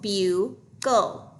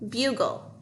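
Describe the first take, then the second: First: The word is broken apart syllable by syllable. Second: The word is said smoothly as one unit.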